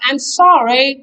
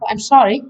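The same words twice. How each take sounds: First: It is said in a drawn-out American way. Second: It is said in a short British way.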